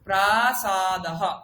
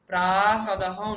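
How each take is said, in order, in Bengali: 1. দুটো স্বরধ্বনিই সমান সময় ধরে দীর্ঘ করে উচ্চারিত হয়। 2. প্রথম স্বরধ্বনিটি দীর্ঘ, দ্বিতীয়টি ছোট। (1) "প্রা এবং সা দুটো আমি শুনতে পাবো" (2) "প্রাসাদহ নয়"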